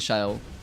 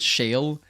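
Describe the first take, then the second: First: The name is said differently from the word shale. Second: The name sounds like the English word shale. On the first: This matches how the name is written in Korean. The speaker calls it right. "it's actually Shael" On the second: This is the habitual way of saying it. The speaker calls it wrong. "I always pronounce it Shale"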